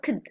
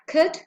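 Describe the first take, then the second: First: It is the more reduced, rapid-speech form. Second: It is the ordinary weak form of could. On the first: "The second one is characteristic of very rapid speech" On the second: "The weak forms of could are"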